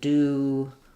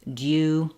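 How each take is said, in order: First: No y sound follows the d. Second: A y sound follows the d. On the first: "American English will won't have that oo, that y sound" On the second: "British English is going to say new, due"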